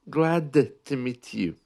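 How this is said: The D in glad is clearly pronounced. "in the north"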